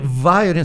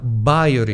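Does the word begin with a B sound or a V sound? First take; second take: V sound; B sound. First: The word begins with a V sound. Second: The word begins with a B sound. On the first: The speaker calls it wrong. "Nem sequer vaiorin" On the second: The speaker calls it right. "senão vaiorin"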